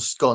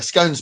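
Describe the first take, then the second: First: It is said in the plain way. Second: It is said in the posh way. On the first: "scone isn't" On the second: "scone's posh"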